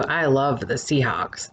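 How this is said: It is said in a sarcastic, mocking tone. The speaker does not really like the team.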